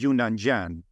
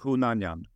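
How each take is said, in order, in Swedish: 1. Namnet börjar med ett Y-ljud. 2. Namnet börjar med ett H-ljud. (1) "så sa de alltid Yunnan-Jan" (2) "På ett riktigt armeniskt sätt skulle man säga Hunanjan"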